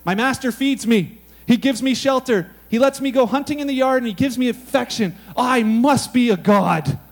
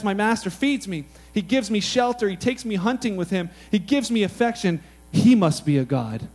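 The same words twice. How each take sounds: First: Proud cat, drawing out the last line; smug cat voice. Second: Grateful dog, hushed at the end; humble dog voice. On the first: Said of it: "A cat says things like this". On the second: Preacher voicing a dog, humble and awed. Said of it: "Dog, however, says". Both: Retold or imitated.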